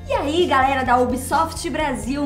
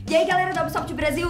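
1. Fala devagar, com cada sílaba exageradamente marcada. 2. Fala muito rápido e com as palavras emendadas. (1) "Tá muito articulado" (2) "Tá muito rápido"

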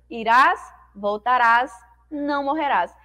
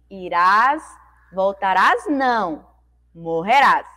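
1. Há uma pausa logo antes de 'não'. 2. Há uma pausa logo depois de 'não'. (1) "Aqui em cima eu leria como" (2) "colocou a vírgula depois da palavra não"

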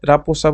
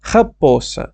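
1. প্রথম ধ্বনিটি একটি সাধারণ r ধ্বনি। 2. প্রথম ধ্বনিটি একটি ফিসফিসে h-এর মতো শব্দ। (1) "না হলে সমস্যা নেই, রাপোসা বলতে পারেন" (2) "রয়ের উচ্চারণটা অনেকটা ডিফারেন্ট আমি জানি"

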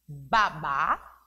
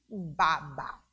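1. O acento está na última sílaba. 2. O acento está na primeira sílaba.

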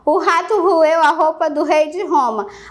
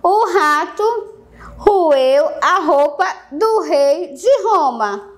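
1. A frase é dita em ritmo rápido. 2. A frase é dita em ritmo lento. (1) "Rápido, bora tentar fazer rápido, olha só" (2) "Eu vou falar devagar"

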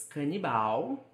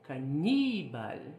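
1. A sílaba tônica é a última. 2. A sílaba tônica é a segunda. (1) "No português" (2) "No espanhol"

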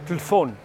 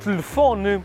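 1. A palavra é cortada logo depois da sílaba tónica. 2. A palavra é dita por inteiro, com todas as sílabas. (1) "dizemos telefone" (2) "nós não dizemos telefone"

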